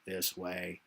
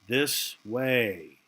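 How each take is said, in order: First: It is said in a robotic voice. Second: It is said in a natural voice.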